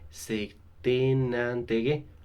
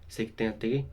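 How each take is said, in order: First: The n of certain is linked to intérêt. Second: The n of certain is not linked to intérêt. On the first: The speaker calls it right. "mais on dit ... On va prononcer le N dans certain" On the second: The speaker calls it wrong. "On ne dit pas"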